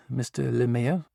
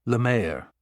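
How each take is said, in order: First: Lemaire said as li-MAY-er, English style; mispronounced name. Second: Lemaire said the French way, luh-MAIR; French pronunciation. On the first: Psychologist addressing Kane, mispronouncing Lemaire as li-MAY-er. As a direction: read Lemaire the anglicised way, li-MAY-er. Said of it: "Kane winced as she mispronounced his surname". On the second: Kane correcting the doctor, saying Lemaire in French. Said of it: "It's actually pronounced". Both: A narrator's reading.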